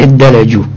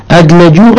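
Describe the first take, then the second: First: ادلجوا with a long, doubled d. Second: أدلجوا with an unstressed, single d after an opening a; light D in أدلجوا. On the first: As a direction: say ادلجوا as "iddalajū", holding the d. (ادلجوا بتشديد الدال) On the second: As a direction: say أدلجوا as "adlajū", no doubling. (أدلجوا بدال ساكنة غير مشددة) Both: Shown as a demonstration. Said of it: "بتشديد الدال".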